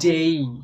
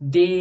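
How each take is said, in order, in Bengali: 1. স্বরধ্বনিটি 'e' থেকে 'ee'-এর দিকে গড়িয়ে যায়। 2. স্বরধ্বনিটি একটি ছোট, সরল 'e' ধ্বনি। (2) "ডে নয়"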